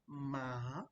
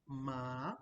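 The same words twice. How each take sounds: The two takes are said the same way.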